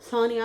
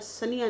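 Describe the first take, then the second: First: The first vowel is long and emphasized. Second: The first vowel is short and unemphasized. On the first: The speaker calls it right. "अब मैंने नाम पे जोर दे के फिर बोला करना" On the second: The speaker calls it wrong. "वरना सनिया निकलता है मुंह से"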